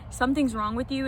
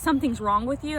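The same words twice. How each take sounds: First: It sounds gentle and concerned. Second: It sounds harsh and insulting. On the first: The person needs help to get better. The speaker calls it right. "I was more so saying" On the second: The person is being criticized. The speaker calls it wrong. "I wasn't saying it in a way of"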